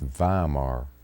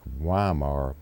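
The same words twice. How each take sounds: First: It is said with a German pronunciation. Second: It is said with an American pronunciation. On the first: This is how the name is really said. "but it's Weimar" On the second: This is how Americans say the name. "We pronounce it, I think, like Weimar"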